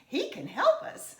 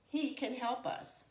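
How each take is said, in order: First: The pitch rises at the end. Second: The pitch falls at the end. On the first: It is an exclamation. "if we said it as an exclamation, it would have a rising tone" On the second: It is a plain statement. "my tone would be of a falling nature"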